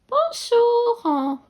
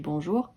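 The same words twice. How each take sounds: First: It is said in a funny put-on voice. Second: It is said in a normal voice.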